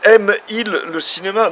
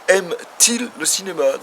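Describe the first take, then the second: First: The verb runs straight into il without t. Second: A t sound links the verb and il. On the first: The speaker calls it wrong. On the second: The speaker calls it right. "ce T est juste là pour aider à la prononciation"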